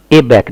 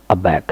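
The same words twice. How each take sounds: First: "ए बैक" said wrongly as ay-back; full ay opening on "ए बैक"; initial "ay". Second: "अबैक" said uh-back; initial short "uh". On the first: Teacher showing what not to say, ay pronunciation. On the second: Teacher modelling the word for learners, uh pronunciation. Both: Shown as a demonstration. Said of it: "ए बैक नहीं बोलेंगे".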